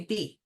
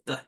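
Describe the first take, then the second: First: "B" said as the letter name "bee"; "B" as the full letter name "bee". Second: "B" said as just the sound "b", short and unvoiced; letter sound B. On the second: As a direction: say "B" as the bare sound, no "ee". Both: Shown as a demonstration. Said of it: "You could just say B".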